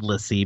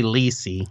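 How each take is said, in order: First: "Lissy" with a short i, LISS-ee; short first vowel in "Lissy", as in miss; pronounced as spelled. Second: "Lissy" said as LEE-see; long "ee" in the first syllable of "Lissy"; pronounced their way. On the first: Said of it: "it's spelled Lissy". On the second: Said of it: "they say Lissy". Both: Shown as a demonstration.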